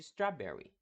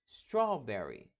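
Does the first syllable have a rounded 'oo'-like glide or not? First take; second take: not rounded; rounded. First: The first syllable has no rounded glide. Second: The first syllable pulls toward a rounded 'oo'. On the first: This is how the word would sound without the W. The speaker calls it wrong. "se removêssemos o W, a palavra teria mais ou menos o som de strawberry" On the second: This is the real pronunciation of the word. The speaker calls it right. "realmente ele puxa essa ideia do U"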